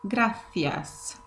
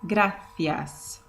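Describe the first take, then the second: First: It is said with a Spanish accent. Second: The same.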